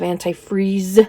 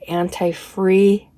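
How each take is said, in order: First: The word ends with a final z sound. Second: The word ends without a final z sound. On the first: The speaker calls it right. "instead of anti-freeze" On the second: The speaker calls it wrong. "She always said anti-free instead of anti-freeze"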